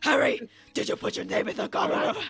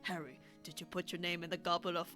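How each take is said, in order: First: It is said loudly and forcefully. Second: It is said quietly and calmly.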